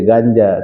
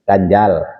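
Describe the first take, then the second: First: The word ends without the final l sound. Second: The word ends with a clear final l sound. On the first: "Bukan maksud dia ganja" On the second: "tapi maksud dia ganjal"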